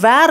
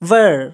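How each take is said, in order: First: The vowel sounds like the 'air' in wear. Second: The vowel sounds like the 'er' in her. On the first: The speaker calls it wrong. "நெறைய பேர் இத எப்படி pronounce பண்ணுவாங்க அப்டின்னா, வேர் அப்படின்னு சொல்லுவாங்க. வேர் கிடையாது" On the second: The speaker calls it right. "வர் வர்"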